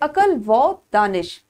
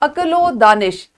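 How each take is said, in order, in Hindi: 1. 'and' दोनों शब्दों के बीच एक अलग शब्द है। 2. 'and' एक 'o' है जो पहले शब्द से जुड़ा होता है। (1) "हम कभी भी इसको इस तरह से अदा नहीं करते" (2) "वो हमेशा ओ की आवाज में आप जानते हैं इस्तेमाल होता है"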